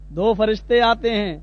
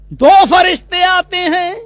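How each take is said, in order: First: Said in the usual way. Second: دو فرشتے آتے ہیں said higher, louder and slow with weight on فرشتے; dramatic emphasis. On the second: Shown as a demonstration. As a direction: announce the angels' arrival slowly and loudly.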